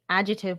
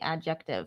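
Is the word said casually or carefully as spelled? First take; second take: casually; carefully. First: The word is said in a relaxed everyday way. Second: The word is said carefully, following its spelling. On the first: This is the normal everyday pronunciation. "I say adjective" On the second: This follows how the word is spelled. "when I'm spelling it, I say adjective"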